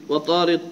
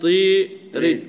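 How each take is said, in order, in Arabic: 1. الصوت الطويل فتحة خالصة مفتوحة. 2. الصوت الطويل مائل نحو الكسر (الإمالة).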